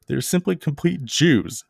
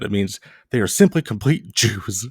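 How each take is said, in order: First: They're simply complete Jews, higher, weight landing on Jews; stress on Jews. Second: Simply complete Jews with Jews hit hardest; stress on Jews. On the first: Lecturer demonstrating the right emphasis, stress on Jews. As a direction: lean into Jews, let complete stay light. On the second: Lecturer correcting a reading, stress on Jews. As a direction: land the weight on Jews, not complete. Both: Shown as a demonstration. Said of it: "Emphasis on the Jews".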